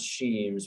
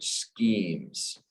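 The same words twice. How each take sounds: First: The ch is said without a k sound. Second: The ch is said as a k sound. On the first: The speaker calls it wrong. "Not schemes" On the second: The speaker calls it right. "this C H is pronounced with kind of like a K"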